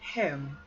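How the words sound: It is said with a British vowel. "Home British"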